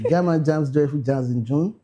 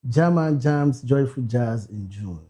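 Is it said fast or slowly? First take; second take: fast; slowly. First: It is said fast. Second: It is said slowly.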